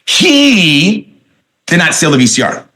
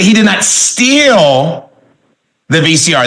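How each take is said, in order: First: The stress falls on the word he. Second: The stress falls on the word steal. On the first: Someone else stole it. "that means somebody else stole it" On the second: He only borrowed it. "that means he just borrowed it"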